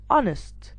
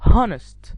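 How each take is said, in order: First: The word begins without an H sound. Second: The word begins with an H sound. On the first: The speaker calls it right. "the H is silent" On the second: The speaker calls it wrong. "not honest"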